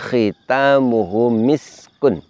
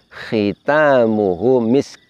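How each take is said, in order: First: The word ends with a full vowel ending. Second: The word stops on a bare k.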